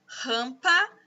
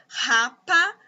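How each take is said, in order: First: "Rampa" read by mistake in place of "rapa"; a slip, said with a rising tune; reading the wrong word; misread word. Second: "rapa" said with no nasal, as plain "ra-pa"; correcting herself; corrected reading. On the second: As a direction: read out the corrected word. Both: Shown as a demonstration. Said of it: "não, desculpa".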